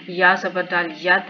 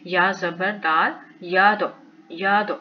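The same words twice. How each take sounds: First: याद ending on a closed, unbounced d; no qalqala. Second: याद with the final d released in a short echo; qalqala bounce. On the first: Teacher showing what not to read, याद with a dead final d. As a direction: stop on the d of याद without any echo. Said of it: "नहीं पढ़ेंगे". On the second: Teacher showing the correct reading, याद with a rebounding d. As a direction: bounce off the d of याद into a tiny vowel. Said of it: "इसके ऊपर कलकला करेंगे". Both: Shown as a demonstration.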